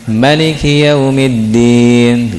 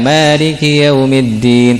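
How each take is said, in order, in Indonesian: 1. Vokal pertama pada maliki pendek. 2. Vokal pertama pada maliki panjang. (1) "di riwayat yang lain pendek"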